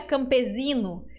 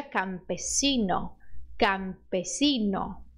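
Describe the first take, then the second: First: Campesino with a Z sound, campezino; wrong Brazilian campesino. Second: Slow campesino with a sharp S, never Z; campesino, S as in sapo; correct Spanish campesino. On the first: Teacher showing the mistake Brazilians make. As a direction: say campesino the Portuguese way with Z. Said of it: "não diga campesino". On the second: Teacher modelling the right Spanish S. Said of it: "diga campesino". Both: Shown as a demonstration.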